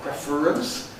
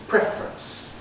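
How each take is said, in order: First: The word is said with three syllables. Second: The word is said with two syllables. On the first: "Is it three syllables" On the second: "or is it two syllables"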